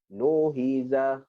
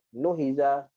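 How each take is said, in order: First: It is said slowly. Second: It is said fast. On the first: "cara baca kita mula daripada perlahan" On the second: "lajukan dia"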